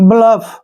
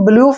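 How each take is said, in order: First: The vowel is a short uh sound. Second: The vowel is a long oo sound. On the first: The speaker calls it right. "यू का जो उच्चारण है ए के रूप में होगा" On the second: The speaker calls it wrong. "इसको हम ब्लूफ नहीं पढ़ेंगे"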